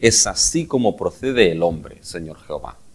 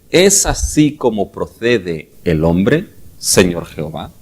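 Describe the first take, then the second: First: It is said as a falling statement. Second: It is said as a rising question.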